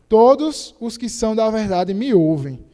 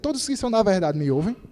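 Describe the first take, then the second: First: It is said as a statement, falling. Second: It is said as a question, rising.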